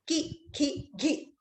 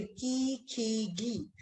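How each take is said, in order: First: की, खी, घी said short, one by one; pronunciation demo. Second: की, खी, घी with long drawn-out ee; long vowel demo. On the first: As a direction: give की, खी, घी each a short, separate vowel. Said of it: "मेरे उच्चारण को सुनिए". (की, खी, घी छोटी मात्रा में, अलग-अलग) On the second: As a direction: stretch the vowel in की, खी, घी, softly. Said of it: "बड़ी ई की मात्रा में भी अगर हम उच्चारण करें". (की, खी, घी लंबी ई खींचकर) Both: Shown as a demonstration.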